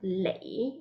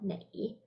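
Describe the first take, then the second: First: The word begins with an L sound. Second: The word begins with an N sound. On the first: This is how it is said nowadays. "Now it's lei" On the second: This is the older way of saying it. "instead of nei"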